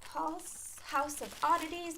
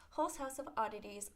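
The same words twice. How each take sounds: First: Hall's read with "Hall" as in hallway; "Hall's House of Oddities" said with an aw sound, slowly; wrong name reading. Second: Hull's read with an "oh" sound as the correction; "Hull's House of Oddities" said with a rounded "oh" vowel; corrected name reading. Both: Shown as a demonstration. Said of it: "no, no".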